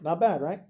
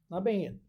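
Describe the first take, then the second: First: Said in the usual way. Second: A quiet, oddly put-on "Not bad." with the sound pulled back; odd little voice. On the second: Real, not acted. Teacher to class, a quirky quiet praise voice. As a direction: toss off "Not bad." in a strange, goofy way. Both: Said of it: "I don't know why I said it like that".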